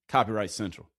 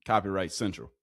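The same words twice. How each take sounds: The two takes are said the same way.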